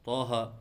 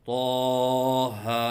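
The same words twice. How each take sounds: First: The long vowel is cut too short. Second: The long vowel is stretched out too long. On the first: "एक अलिफ के बराबर लंबा करके नहीं पढ़ते" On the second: "ज़्यादा लंबा करके पढ़ते हैं"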